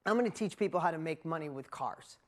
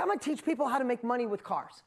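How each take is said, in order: First: Lower, dry and deadpan "I'm gonna teach people how to make money with cars"; wry repeat. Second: Bold, punchy declaration; fired up. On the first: Shown as a demonstration. Speaker repeating his old plan to the crowd, deadpan. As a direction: let the plan sound silly now, low and dry. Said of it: "Now think about that". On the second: Retold or imitated. Young Dean declaring his new business plan, fired up. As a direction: announce the big plan with fire. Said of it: "I get all fired up".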